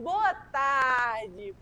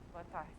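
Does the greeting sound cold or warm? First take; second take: warm; cold. First: The greeting sounds warm and smiling. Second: The greeting sounds cold and indifferent. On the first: The customer feels welcomed and embraced. The speaker calls it right. "sorriso no rosto e simpatia" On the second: The customer feels ignored and won't take the flyer. The speaker calls it wrong. "Você acha que se ele chegasse assim nos outros?"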